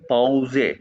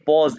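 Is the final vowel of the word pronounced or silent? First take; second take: pronounced; silent. First: The word ends with a pronounced final vowel. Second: The word ends without a final vowel sound. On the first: This is the German pronunciation. "एंड पे ई को ए कहते हैं तो ये बन गया पाउजे" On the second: This is the English pronunciation. "ये पॉज इंग्लिश में है"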